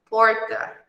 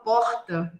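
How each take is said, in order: First: The R is strongly curled back. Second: The R has a strong, raspy carioca sound. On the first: "vocês vão falar com um R bem enroladinho" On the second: "O carioca fala porta, com um som bem puxado"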